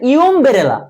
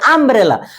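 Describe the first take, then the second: First: The word begins with a 'yoo' sound. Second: The word begins with an 'uh' sound. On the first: The speaker calls it wrong. "তুমি কিন্তু বলতেছ না ইউমব্রেলা" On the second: The speaker calls it right. "ইউ এর উচ্চারণ কিন্তু আ করতেছো"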